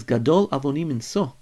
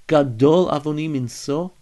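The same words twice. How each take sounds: First: "Gadol avoni minso" with a falling tune, as a flat statement; "Gadol avoni minso" as a statement, no question in it; read as a statement. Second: "Gadol avoni minso" louder, with the tune rising at the end; "Gadol avoni minso" turned into a hopeful question; read as a question. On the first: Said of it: "I read it as a statement before". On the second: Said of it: "there's a second way to read it". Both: Shown as a demonstration.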